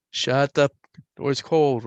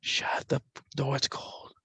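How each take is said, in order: First: Said in the usual way. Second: Soft unvoiced whisper. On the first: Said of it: "There's a whisper and then Jim". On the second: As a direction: breathe it out like a ghost on the tape. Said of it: "you hear a whisper now".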